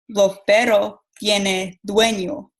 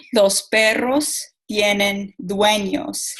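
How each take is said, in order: First: "Los perros tienen dueño" with the s sounds dropped, Cuban style; Cuban Spanish. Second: "los perros tienen dueños" with every s and r said fully, slowly; Mexican strong consonants. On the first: Student showing the class Cuban speech, weak consonants. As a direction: soften "perros" and drop the final s of "dueño". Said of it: "pero en Cuba dicen". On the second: Student showing the class Mexican Spanish, crisp consonants. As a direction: say "dueños" with a clear final s, carefully. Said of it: "los consonantes son fuertes". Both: Shown as a demonstration.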